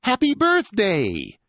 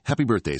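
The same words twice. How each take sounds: First: Loud, high, drawn-out birthday cheer; family shout. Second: Said in the usual way. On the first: Acted. Whole family shouting birthday wishes at the girl, loud. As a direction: cheer it slowly to surprise her. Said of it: "The whole family shouts".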